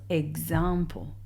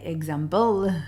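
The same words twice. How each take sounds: First: The stress is on the second syllable. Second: The stress is on the last syllable. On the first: The speaker calls it right. "the accent is on the A" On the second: The speaker calls it wrong. "I don't say example on the last uh, syllable"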